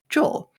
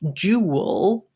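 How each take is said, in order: First: The word sounds like the name 'Joel'. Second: The word sounds like 'jewel'.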